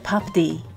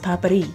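First: The middle consonant sounds like a d. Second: The middle consonant sounds like an r. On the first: This is how the spelling on the package reads. The speaker calls it wrong. "On the package, it looks like papdi" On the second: This is how native speakers say it. The speaker calls it right. "native Indians and they pronounce it as papri"

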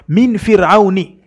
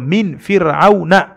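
First: The word ends with an 'i' vowel. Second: The word ends with an 'a' vowel. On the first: The speaker calls it wrong. "Yeye akasema min fir'auni" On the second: The speaker calls it right. "lazima iwe jarri yake ni ya fatha"

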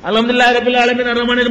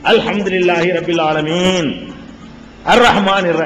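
First: It runs on with no pause after 'alamin'. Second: There is a clear pause after 'alamin'. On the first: The verses are rushed together. The speaker calls it wrong. "1 மணி நேரத்துக்குள்ள 1.5 ஜுஸ் ஓதுனா அவர் என்ன ஓதுவாரு, எப்படி ஓதுவாரு?" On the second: Each verse is recited separately. The speaker calls it right. "ஒரு ஆயத்துக்கும் அது ஆயத்துக்கு மத்தியில இடைவெளி விடுவார்கள். எப்படி?"

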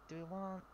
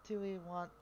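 The two takes are said the same way.

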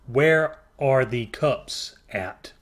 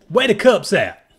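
First: The word 'are' is spoken in full. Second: The word 'are' is dropped entirely. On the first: The speaker calls it wrong. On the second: The speaker calls it right.

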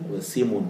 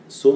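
First: The vowel after s is i. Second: The vowel after s is u. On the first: "بكسر السين" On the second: "اللي هي بضم السين"

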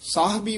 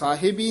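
First: No vowel follows the h sound. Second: A short i vowel follows the h sound. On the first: The speaker calls it right. "ਸਾਹਿਬੀ ਉਚਾਰਨ ਕਰਨਾ ਹੈ" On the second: The speaker calls it wrong. "ਇਹਨੂੰ ਵੀ ਸਾਹਿਬੀ ਨਹੀਂ ਕਹਿ ਦੇਣਾ, ਹਾਹੇ ਦੇ ਨਾਲ ਵੀ ਸਿਹਾਰੀ ਨਹੀਂ ਲਾ ਦੇਣੀ"

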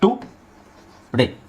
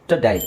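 First: The first vowel is a full 'oo' sound. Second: The first vowel is a weak 'uh' sound. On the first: The speaker calls it wrong. "ಇದನ್ನು ನಾವು ಈ ಥರ ಹೇಳ್ಬೋದು" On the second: The speaker calls it right. "T ಆದಮೇಲೆ ಅ ಇದೆ"

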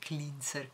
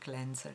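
First: The word is pronounced with Italian-style sounds. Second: The word is pronounced with English sounds. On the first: The speaker calls it wrong. "Non si dice cleanser" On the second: The speaker calls it right. "Si dice cleanser"

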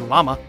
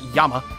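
First: The word begins with an L sound. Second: The word begins with a Y sound. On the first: This is how English speakers say it. "we say llama" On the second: This is how English speakers do not say it. "not llama"

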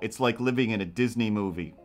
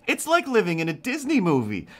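First: The voice sounds weary and fed up. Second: The voice sounds cheerful and delighted. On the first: Living with him is tiring and annoying. "No, they say it like, yeah, no" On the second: Living with him is fun and charming. "But they don't say it like"

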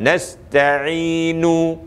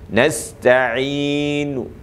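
First: The final vowel is sounded fully. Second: The final vowel is sounded only faintly. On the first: The speaker calls it wrong. "bukan nasta'inu. Itu penuh" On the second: The speaker calls it right. "Separuh saja"

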